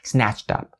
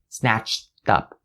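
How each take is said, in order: First: The phrase is said fast. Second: The phrase is said slowly.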